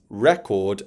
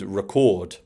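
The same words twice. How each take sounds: First: The stress is on the first syllable. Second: The stress is on the second syllable. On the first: It names a music record, the noun. "They mean two different things depending on where you put the stress" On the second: It names the action of recording, the verb. "whereas record is the verb"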